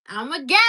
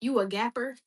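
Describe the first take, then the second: First: Loud, high, laughing claim; excited. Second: Said in the usual way. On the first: Real, not acted. Answering the chat, proud and laughing out loud. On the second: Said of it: "reading a chat question".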